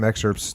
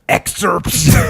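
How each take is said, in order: First: The word is said in a calm, plain voice. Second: The word is said loudly with escalating intensity. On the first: "you don't just say, hey, you know" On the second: "you go escalation voice level twelve"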